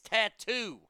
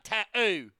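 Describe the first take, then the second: First: The middle T is clearly pronounced. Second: The middle T is dropped, British style. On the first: The speaker calls it right. "There's another T in there, Dingleberry. It's tattoo" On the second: The speaker calls it wrong. "Not tattoo"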